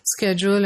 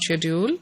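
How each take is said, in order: First: It is said with an American pronunciation. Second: It is said with a British pronunciation. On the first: This pronunciation is gaining acceptance. "would pronounce this word as schedule" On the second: This pronunciation is losing ground. "and not schedule"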